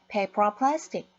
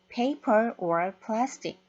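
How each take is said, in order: First: The words run together as one linked unit. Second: Each word is said separately and clearly. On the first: "역시 연음해서 발음을 합니다" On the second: "이라고 정확하게 발음하지 않고요"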